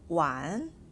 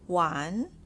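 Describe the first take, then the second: No difference in how they are said.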